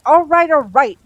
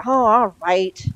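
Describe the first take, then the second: First: Loud, high, exasperated cut-in; irritated snap. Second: Grudging, drawn-out giving in, louder; wretched concession. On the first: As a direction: cut them off with loud impatience. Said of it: "Crowley snapped". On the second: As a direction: give in miserably, stretching the words slowly. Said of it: "said Crowley wretchedly". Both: A narrator's reading.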